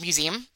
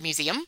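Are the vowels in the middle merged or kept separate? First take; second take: merged; separate. First: The middle vowels merge, so it has fewer syllables. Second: The middle vowels are said as separate syllables. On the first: This is how the speaker has always said it. The speaker calls it wrong. "In my entire life, I've said museum" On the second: This is how it is supposed to be said. The speaker calls it right. "I have not said museum"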